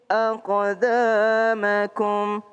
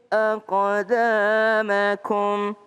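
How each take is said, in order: No difference in how they are said.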